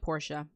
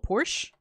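First: The name is pronounced as it is spelled. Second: The name sounds like the car brand Porsche. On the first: "I'm calling it Portia. Written like Portia" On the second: "Portia like the car?"

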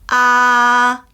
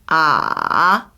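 First: The syllable carries the first tone. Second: The syllable carries the third tone. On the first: "1성" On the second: "3성"

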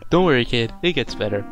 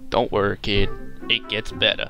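First: It is read in a plain, neutral voice. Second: It is read in a put-on country accent.

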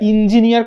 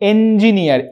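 First: The first vowel is not an 'e' sound. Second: The first vowel is an 'e' sound. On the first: The speaker calls it wrong. "ইঞ্জিনিয়ার কথাটা কিন্তু ভুল" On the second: The speaker calls it right. "এ এ vowel sound আসছে"

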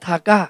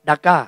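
First: It starts with an aspirated t sound. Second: It starts with a d sound, Western style. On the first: The speaker calls it right. "ออกเสียงทากาไม่ใช่ดักกานะ" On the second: The speaker calls it wrong. "ผมเรียกดักกาอ่านแบบฝรั่งอ่านภาษาอังกฤษ"

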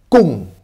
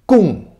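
Both takes have the same delivery.

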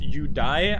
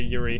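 First: The middle sound is said the Japanese way. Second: The middle sound is said the English way. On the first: "it's actually pronounced Yudai, I think, because the Japanese pronounce the R part of Yuri as Yudai" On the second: "because we are English speakers ... I'm gonna also say Yuri"

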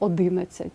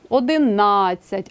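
First: The stress falls away from the connecting vowel. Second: The stress falls on the connecting vowel. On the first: The speaker calls it wrong. "а не" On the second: The speaker calls it right. "Числівники мають наголос на з'єднувальній літері"

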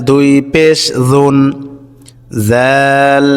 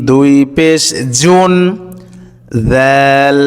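No difference in how they are said.

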